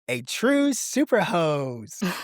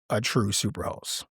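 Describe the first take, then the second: First: It is said very loudly, in a put-on voice. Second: It is said at normal conversational loudness. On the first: The speaker calls it right. "I better back away from the mic because I don't want it to peak" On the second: The speaker calls it wrong. "you didn't say it right"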